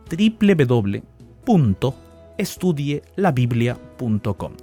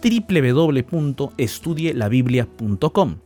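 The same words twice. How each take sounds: First: It is said more slowly. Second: It is said at normal speed.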